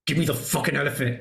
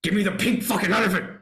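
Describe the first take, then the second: First: Fast, tense retold demand; menacing demand. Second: Higher, fast retold outburst; furious demand. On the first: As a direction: press it out quickly, barely holding the anger in. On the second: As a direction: let the rage break through, landing on elephant. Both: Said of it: "He's like".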